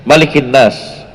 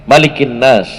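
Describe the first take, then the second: Both takes have the same delivery.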